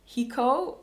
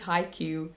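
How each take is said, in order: First: The word is said with a Dutch pronunciation. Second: The word is said with an English pronunciation. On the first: The speaker calls it wrong. "that's the Dutch pronunciation of, of that word" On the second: The speaker calls it right. "that makes a lot more sense"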